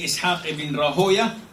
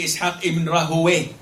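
First: The name ends with an 'oya' sound. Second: The name ends with an 'oway' sound. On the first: "You can say Ishaq ibn Rahoya" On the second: "and you can say Ishaq ibn Rahoway"

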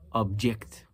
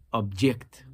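First: The stress is on the second syllable. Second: The same.

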